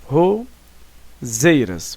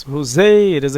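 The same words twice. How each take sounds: First: "roseiras" very slow, broken into "ro" and "zeiras"; syllable by syllable. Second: "Roseiras" in one piece, leaning on "zei"; stress on ZEI. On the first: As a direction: split "roseiras" with a clear pause after "ro". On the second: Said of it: "aqui é a última sílaba tônica, o zei". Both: Shown as a demonstration.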